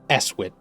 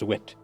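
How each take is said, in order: First: The name begins with a vowel before s. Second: The name begins directly with an s sound. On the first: The speaker calls it wrong. "it's not Eswit" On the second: The speaker calls it right. "it's Swit"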